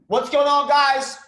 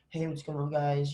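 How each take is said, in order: First: It sounds excited and full of conviction. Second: It sounds flat, without conviction.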